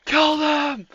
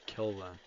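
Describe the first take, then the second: First: Squeaky battle cry. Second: Quiet. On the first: Pretend. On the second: Real, not acted.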